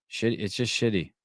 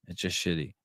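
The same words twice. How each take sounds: First: Said in the usual way. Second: Softer mutter of it's just shitty to himself; grumbled, deflated aside; muttered repeat. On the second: Shown as a demonstration. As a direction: drop it under your breath.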